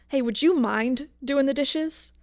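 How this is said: It is asked in an angry, accusatory tone.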